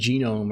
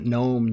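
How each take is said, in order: First: The word begins with a hard g sound. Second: The word begins with a plain n sound. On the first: "do you actually pronounce it Genome?" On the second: "I know obviously the mythical creature, the gnome"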